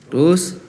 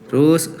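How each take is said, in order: No difference in how they are said.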